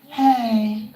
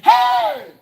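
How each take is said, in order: First: It is said weakly, without energy. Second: It is said loudly, with high energy.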